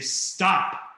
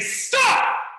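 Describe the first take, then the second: First: It is said in a firmer, serious voice. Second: It is said extremely loudly.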